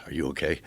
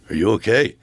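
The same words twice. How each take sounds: First: A hushed, gentle "Are you okay?" asked much softer; soft, cautious question. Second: A louder, alarmed "Are you okay?" with a rising end; retelling the first try, the words "Are you okay?" asked out loud; first blurted version. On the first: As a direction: ask "Are you okay?" quietly, like approaching someone fragile. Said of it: "Like that". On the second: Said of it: "no, first he went like this". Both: Retold or imitated.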